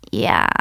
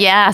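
First: Yeah dropped very low; deep flat yeah. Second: Said in the usual way. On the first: Retold or imitated. Imitating friend's deadpan low yeah. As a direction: drop the yeah way down. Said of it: "And she goes". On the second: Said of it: "sometimes where you're like".

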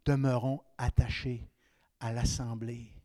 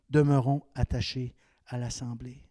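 Both takes have the same delivery.

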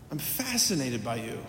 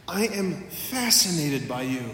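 First: I'm fascinated by you said softer and lower; a quiet, awed echo of the line; softer repeat. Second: Said in the usual way. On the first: Retold or imitated. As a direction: let the repeat fall hushed and tender.

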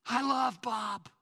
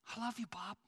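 First: Proclaimed. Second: Tender. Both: Acted. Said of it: "it says".

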